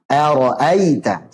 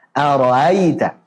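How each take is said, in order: First: "Ara'aita" with a crisp, distinct hamzah, slowly; "Ara'aita", each hamzah clearly stopped. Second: "Ara'aita" with the hamzah eased toward alif; "Ara'aita", middle hamzah softened and blurred; wrong tashil. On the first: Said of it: "Jelaskan hamzahnya". (hamzah dibaca jelas) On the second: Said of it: "Jangan dibaca dengan tashil". (hamzah dibaca tashil) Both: Shown as a demonstration.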